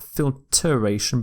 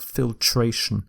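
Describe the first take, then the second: First: FILTRATION with an extra syllable, fil-ter-AY-shun; wrong pronunciation. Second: FILTRATION in three syllables, fil-TRAY-shun; correct pronunciation. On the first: Teacher showing the misspelt word, FILTRATION wrongly said as fil-ter-ay-shun. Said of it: "is dropped. So not filtration". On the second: Teacher correcting the word, FILTRATION said as fil-TRAY-shun. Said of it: "in filter is dropped". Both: Shown as a demonstration.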